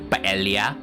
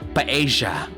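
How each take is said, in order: First: The double L sounds like L plus Y. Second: The double L sounds like an English J. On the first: "pronouncing it as L Y" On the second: "with a J"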